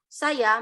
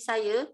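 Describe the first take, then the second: First: The word ends in an open 'a' sound. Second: The word ends in an 'e'-like sound.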